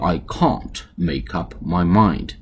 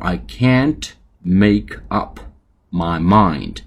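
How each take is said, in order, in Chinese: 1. 这句话是用英式口音说的。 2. 这句话是用美式口音说的。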